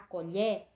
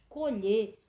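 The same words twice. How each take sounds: First: The stressed vowel sounds open. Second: The stressed vowel sounds closed. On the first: It is the noun meaning spoon. "a colher, o som do E é aberto" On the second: It is the verb meaning to pick. "quando eu digo vamos colher, o som do O ele é fechado"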